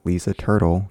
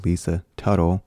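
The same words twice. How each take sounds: First: "Turtle" said with a clear R, like the animal; Lisa Turtle. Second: "Tuttle" said with no R, stressed TUT; Lisa Tuttle. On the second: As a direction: say "Tuttle" as TUT-tle, no R sound. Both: Shown as a demonstration. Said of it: "Not Lisa Turtle from Saved by the Bell".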